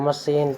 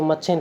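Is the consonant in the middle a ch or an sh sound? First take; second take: sh; ch. First: The middle consonant is an sh sound. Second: The middle consonant is a ch sound. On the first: This is the pronunciation used today. "हमें वही उच्चारण करना पड़ेगा" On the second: This is the original, historical pronunciation. "इसका उच्चारण वास्तव में करें तो मच्छिन कर सकते हैं"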